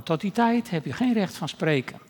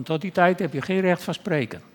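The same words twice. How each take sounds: First: "geen" punched with a fall; stress on geen. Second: "tijd" weighted with a fall; stress on tijd. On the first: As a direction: lean on "geen", rest plain. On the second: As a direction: lean on "tijd", rest plain. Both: Real, not acted. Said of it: "repeated line, stress moved".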